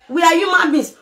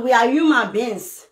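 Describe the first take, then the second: First: Shouted with the stress on are; angry protest about how people are treated. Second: Said in the usual way. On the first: Real, not acted. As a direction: hit are hard and shout it. Ranting about burial tradition.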